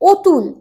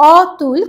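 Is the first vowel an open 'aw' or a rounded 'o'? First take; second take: rounded o; open aw. First: The first vowel is a rounded 'o' sound. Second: The first vowel is an open 'aw' sound. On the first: "আমরা উচ্চারণ করি অতুল" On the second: "অতুল কথাটাকে"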